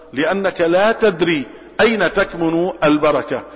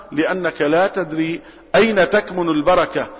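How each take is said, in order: The two takes are said the same way.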